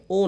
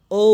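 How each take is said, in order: First: O said wrongly as a short pure "o"; short Bengali "o", no glide; O without glide. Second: O said long as "oh-oo"; O as diphthong. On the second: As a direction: stretch O, gliding into "oo". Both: Shown as a demonstration. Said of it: "ও না".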